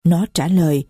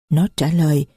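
No difference in how they are said.

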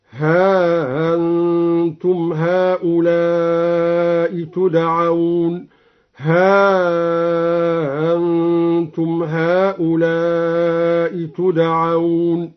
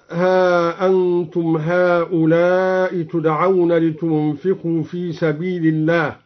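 First: ها أنتم with the hamza softened, drawn out then short; eased hamza, long and short. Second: Said in the usual way. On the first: Shown as a demonstration. Teacher demonstrates madd and qasr for students, very slow. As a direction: recite ها أنتم very slowly with tas-hil. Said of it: "على المد والقصر هكذا". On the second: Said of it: "سهل الدوري الهمزة".

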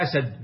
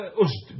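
First: "أسد" said asad, opening on a; singular "أسد" with two short a vowels; fatha on the hamza. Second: "أسد" said usd, opening on u; damma on the hamza. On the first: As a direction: say "أسد" as A-sad. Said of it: "بالفتح". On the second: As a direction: say "أسد" as USD, one syllable. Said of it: "ضم الهمزة". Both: Shown as a demonstration.

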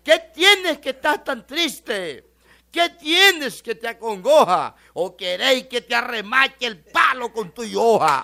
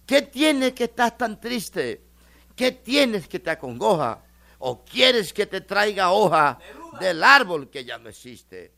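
First: Loud, slow declamation, laughing by the end; garbled pretty line. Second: Slow, tender poetic recital; pretty line. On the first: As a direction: bellow the half-forgotten poem. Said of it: "se le olvidó y le dice". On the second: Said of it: "una frase bien bonita". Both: Retold or imitated.

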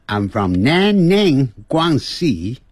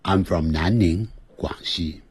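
First: "南宁，广西" in slow, foreign-sounding tones; foreign accent on Chinese names. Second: "南宁，广西" in standard Mandarin tones; standard Chinese pronunciation. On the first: Teacher shows the needless foreign accent on "南宁，广西". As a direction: mimic a foreigner saying "南宁，广西", drawn out. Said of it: "如果要学这个外国腔". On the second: Teacher shows students to use standard Mandarin for "南宁，广西". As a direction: keep "南宁，广西" native Mandarin inside the English sentence. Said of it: "直接讲标准的声音". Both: Shown as a demonstration.

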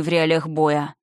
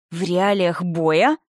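First: Said in the usual way. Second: Slow, incredulous rising question; angry echo. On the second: A narrator's reading. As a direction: stretch it out in indignant disbelief. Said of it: "задыхаясь от гнева".

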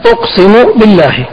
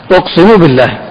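First: أقسم raised high and stressed, then بالله falling; emphatic oath. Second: Said in the usual way. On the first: Shown as a demonstration. Sheikh showing students the full oath, أقسم stressed high. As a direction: lift أقسم and let بالله fall. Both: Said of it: "أن يقول الإنسان".

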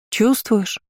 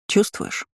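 First: High-pitched insistent question, falling at end; demanding. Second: Hushed, almost whispered question; soft question. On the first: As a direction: press for an answer, pitch raised. (требовательно, высоким тоном, с падением) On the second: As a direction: ask it gently, barely voiced, tone rising. (тихий вопрос почти шёпотом) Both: A narrator's reading. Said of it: "обращаясь более требовательно".

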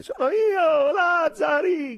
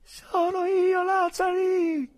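First: Very high, loud sobbing call; crying shout. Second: Very high, loud, slow calling; shrill cry. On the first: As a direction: shout through tears, slow. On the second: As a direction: cry out your name, high and drawn out. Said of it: "invocando con voce acuta". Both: Acted.

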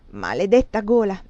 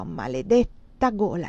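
First: Loud, annoyed exclamation; irritated curse. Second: Slow curse through a yawn. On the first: Man curses his burning throat, irritated. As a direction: curse it out crossly. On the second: Sleepy man repeats his curse in the armchair, yawning. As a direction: drag it out as you yawn. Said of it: "sbadigliò". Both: A narrator's reading.

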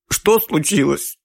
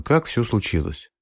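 First: High, slow sobbing question. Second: Said in the usual way. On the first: A narrator's reading. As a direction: sob the words out. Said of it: "взрыднула женщина".

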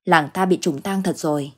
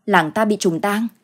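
First: "Làng ta bị trùng tang" stated evenly as a settled fact; grim statement. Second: "Làng ta bị trùng tang" as a question, lifting at the end; disbelieving echo question. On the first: Husband confirming the village curse to his wife, resigned statement. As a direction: let "trùng tang" settle without questioning. Husband concludes grimly after sighing. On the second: Wife repeating her husband's news, questioning in disbelief. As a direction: raise "tang" in startled doubt. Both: A narrator's reading.

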